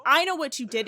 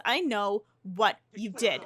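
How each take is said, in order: First: Louder, the I hit hard; louder accusation. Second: Said in the usual way. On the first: Acted. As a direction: repeat it as an angry threat. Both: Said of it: "And Loki says".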